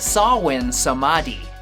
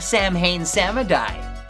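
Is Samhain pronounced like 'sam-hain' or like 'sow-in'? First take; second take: sow-in; sam-hain. First: Samhain is said like 'sow-in'. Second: Samhain is said like 'sam-hain'. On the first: The speaker calls it right. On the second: The speaker calls it wrong.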